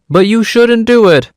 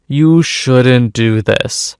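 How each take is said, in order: First: High-pitched playful reproach; mock scolding. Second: Said in the usual way. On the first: Narrator half-disapproving of the theft, mock scolding.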